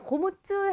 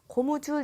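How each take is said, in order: First: The ㅈ in 줄 is tense. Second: The ㅈ in 줄 is plain. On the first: The speaker calls it wrong. "고무줄 해도 될 것 같은데" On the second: The speaker calls it right. "살소리 형성 자체가 나지 않아요"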